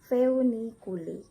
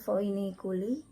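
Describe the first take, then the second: First: "feuniculi" louder, as feu-ni-ku-li; OE read as EU. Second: "foeniculi" with an oi sound, foi-ni-ku-li; OE as written. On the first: Teacher giving the correct reading, "feuniculi" with a clear eu. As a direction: lean on the eu in "feuniculi". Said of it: "tapi harusnya kalian baca". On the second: Teacher citing the spelling, "foeniculi" said with oi. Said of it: "jadi ada tulisan". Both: Shown as a demonstration.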